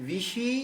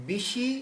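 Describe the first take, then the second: No difference in how they are said.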